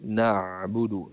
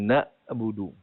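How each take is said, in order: First: The middle consonant is a deep throat sound. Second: The middle consonant is a plain glottal stop. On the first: The speaker calls it right. "kerana di situ adalah huruf ain" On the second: The speaker calls it wrong. "bukan na'budu. ... jangan bertukar dengan huruf hamzah"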